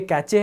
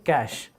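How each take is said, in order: First: It is two syllables with a ch sound. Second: It is one syllable ending in a sh sound. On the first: The speaker calls it wrong. "ना ही ये कैचे है" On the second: The speaker calls it right. "ऐसा pronounce कर रहे हैं इसे"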